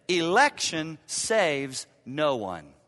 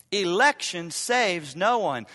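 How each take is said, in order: First: Slow, with stress on "Election"; slow emphatic statement. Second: Slow and louder, punching "no"; louder slow restatement. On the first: Pastor to congregation, slow with weight on "Election". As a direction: lay down "Election" slowly and heavily. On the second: Pastor driving the point home, punching "no". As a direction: repeat it slower, hitting "no" hard. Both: Real, not acted.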